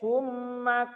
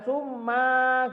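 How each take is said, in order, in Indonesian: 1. Vokalnya dibaca pendek. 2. Vokalnya dipanjangkan. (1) "sumanya pendek" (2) "jangan summa gitu"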